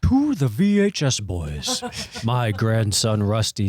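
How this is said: It is read in a put-on Santa voice.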